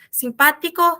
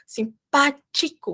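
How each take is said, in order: First: The T sound is pure and weak. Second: The T sound is strong and forceful. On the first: This is the Spanish way of saying it. The speaker calls it right. "em espanhol a gente faz essas coisas bem puras e bem fracas" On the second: This is the Portuguese way of saying it. The speaker calls it wrong. "em português fala simpático, simpático, muito forte"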